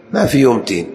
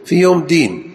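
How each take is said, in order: First: تين with a voiceless t; teen with ت in تين; ta for dal. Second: دين higher, with voiced d; raised-pitch deen with د in دين; clear dal. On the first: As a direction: stress the wrong t word تين. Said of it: "فإذا نطقتها بالتاء". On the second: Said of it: "الدين بالدال". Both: Shown as a demonstration.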